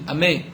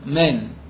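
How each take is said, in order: First: The final n sound is left out. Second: The opening vowel sound is left out. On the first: "il va manquer le Nun" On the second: "on ne va pas prononcer le Aleph correctement"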